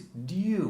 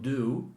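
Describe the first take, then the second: First: There is a Y sound after the D. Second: There is no Y sound after the D. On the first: The speaker calls it right. "it's dew with a Y in it" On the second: The speaker calls it wrong. "it's not do"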